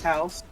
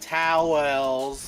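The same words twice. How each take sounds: First: The word is said very quickly and briskly. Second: The word is said slowly and drawn out. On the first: It saves time. The speaker calls it right. "just real, real quick, real swift" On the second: It wastes time. The speaker calls it wrong. "that would ruin the whole purpose of it"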